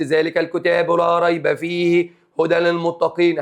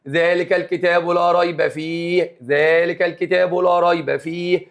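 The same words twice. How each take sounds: First: "فيه" linked into "هدى" with no stop; read straight through. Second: Slow, with a clear stop on "فيه"; stop after the phrase. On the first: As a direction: join "فيه هدى للمتقين" in one breath. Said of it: "لأن قال لي يحسن". (وصل "فيه" بـ "هدى" بلا وقف) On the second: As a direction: pause on "فيه" before going on. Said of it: "أديني وقفت أهو". (وقف حسن عند "فيه") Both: Shown as a demonstration.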